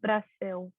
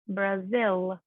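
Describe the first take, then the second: First: The final L is pronounced weakly. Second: The final L is pronounced strongly. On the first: "instead of Brasil" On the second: "in English we pronounce Brazil"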